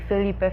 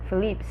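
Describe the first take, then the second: First: The name is said as Felipe. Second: The name is said as Philippe. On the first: This is how it was read in the book. "I would always say Felipe" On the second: This is how it is said in the series. "it says Philippe"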